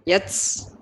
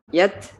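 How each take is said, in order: First: The final t ends in a hissing s-like sound. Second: The final t ends in a soft breath release. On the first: The speaker calls it wrong. "desisnya itu disamakan dengan huruf sin" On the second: The speaker calls it right. "tapi lepas saja"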